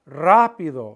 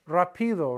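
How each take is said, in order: First: The stress is on the first syllable. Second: The stress is on the second syllable. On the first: The speaker calls it right. "to stress the A" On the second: The speaker calls it wrong. "If it weren't there, it would be pronounced rapido"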